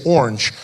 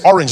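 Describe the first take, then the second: First: "orange" squashed toward ORNJ; "orange" with the middle vowel swallowed; American pronunciation. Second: "orange" in two clear syllables; "orange" with both vowels sounded; South African pronunciation. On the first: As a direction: say "orange" as one American syllable. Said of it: "they don't say words the same way". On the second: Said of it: "they don't say orange". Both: Shown as a demonstration.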